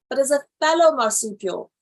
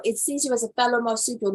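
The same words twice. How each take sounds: First: "fellow" pushed louder and longer; stress on fellow. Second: Said in the usual way. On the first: Shown as a demonstration. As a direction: lean hard on "fellow" to contrast it with parent. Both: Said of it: "not even as a parent marsupial".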